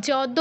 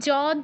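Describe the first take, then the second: First: The word begins with a j sound. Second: The word begins with a j sound.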